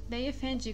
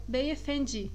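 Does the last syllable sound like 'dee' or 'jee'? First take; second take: jee; jee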